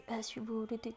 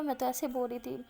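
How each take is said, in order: First: Softer, mocking echo; retold mock imitation, under the voice; sulky mimicking. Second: Said in the usual way. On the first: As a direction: parrot the words back in a mild huff. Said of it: "غصے میں نا منہ چڑھا کے بولتی". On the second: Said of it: "منہ چڑھا کے بولتی".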